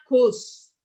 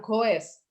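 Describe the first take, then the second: First: Teacher modelling goes as "gos"; goes said as one syllable. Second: The mistaken spelling reading of goes; goes read letter by letter as "go-es". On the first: Teacher to class, showing the reading: goes as one syllable "gos". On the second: Teacher to class, showing the wrong reading: goes split as "go-es". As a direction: say goes wrongly in two syllables, go-es. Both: Shown as a demonstration. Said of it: "Bukan goes".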